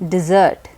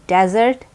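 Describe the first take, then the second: First: It sounds like the word dessert. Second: It does not sound like the word dessert. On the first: It is used as a verb. "when it is a verb, it's pronounced as dessert" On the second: It names a dry, sandy place. "it is pronounced as desert when it is a noun"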